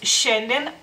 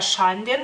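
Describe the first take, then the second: First: The sh is soft and the vowel sounds like e. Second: The sh is hard and the vowel sounds like a. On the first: The speaker calls it right. "la she es suave, la i no se pronuncia y se pronuncia la a como si fuera e" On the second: The speaker calls it wrong. "Si no escribiéramos la i sería Schanden"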